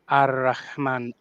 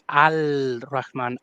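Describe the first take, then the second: First: The article's L blends into the following R. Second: The article's L is pronounced clearly before R. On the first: The speaker calls it right. "this is supposed to be read Ar-Rahman" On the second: The speaker calls it wrong. "pronouncing the Alif Lam very clearly"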